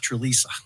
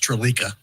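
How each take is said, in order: First: The third syllable starts with an S sound. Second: The third syllable starts with a K sound. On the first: The speaker calls it right. "it was Trelisa" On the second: The speaker calls it wrong. "It just aches me when somebody goes Trelika"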